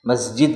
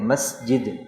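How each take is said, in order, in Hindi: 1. बीच का व्यंजन Z जैसा बोला जाता है। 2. बीच का व्यंजन S जैसा बोला जाता है। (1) "हम क्योंकि सीन को ज़ा पढ़ते हैं उर्दू में" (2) "हालांकि है मस्जिद सीन है"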